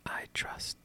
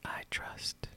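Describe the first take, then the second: No difference in how they are said.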